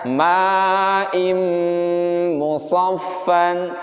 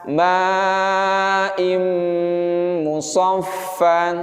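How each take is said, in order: No difference in how they are said.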